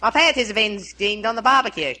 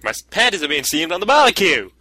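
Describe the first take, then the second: First: Mild Australian accent; lightly played stereotype Aussie. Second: High, hammed-up Aussie accent; cartoonish Australian accent, swooping high; stereotype Australian accent. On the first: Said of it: "try and say the barbecue one, like, with the stereotype accent". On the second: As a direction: exaggerate a stereotyped Australian twang, pitched up. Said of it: "with the stereotype accent". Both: Shown as a demonstration.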